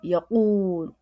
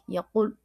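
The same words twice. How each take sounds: First: The vowel is drawn out long. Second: The vowel is short and clipped. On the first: "il a dit yaqoul" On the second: "C'est comme sec"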